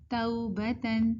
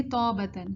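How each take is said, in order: First: توبتن with a slow "tau" glide; correct leen. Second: توبتن with a flat "taw" vowel, no glide; wrong reading. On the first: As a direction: draw توبتن out as tau-ba-tan. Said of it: "تو ہم اس کو کیسے پڑھیں گے". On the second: Teacher showing the mistake, glide dropped. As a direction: say توبتن quickly as taw-batan. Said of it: "اگر ہم غلط پڑھیں گے". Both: Shown as a demonstration.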